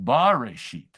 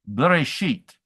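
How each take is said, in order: First: The first vowel is long. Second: The first vowel is very short. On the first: "rather than a long" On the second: "a very short b"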